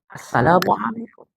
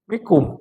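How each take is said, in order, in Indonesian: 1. Setiap suku kata dari salam itu diucapkan. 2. Hanya suku kata terakhir dari salam itu yang diucapkan. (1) "salam yang benar" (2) "Jangan cuma mikum"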